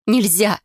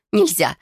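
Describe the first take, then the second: First: Sharp, louder no; urgent cry. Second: Repeated urgent cry. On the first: Frightened girl refuses to call the healers, urgent cry. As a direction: forbid it urgently. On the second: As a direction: insist once more. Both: A narrator's reading. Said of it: "замотала головой".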